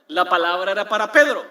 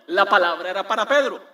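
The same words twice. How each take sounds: The two takes are said the same way.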